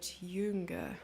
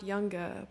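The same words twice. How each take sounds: First: Jünger drawn out like a German speaker. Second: Said in the usual way. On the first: Shown as a demonstration. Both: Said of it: "Not younger, but jünger".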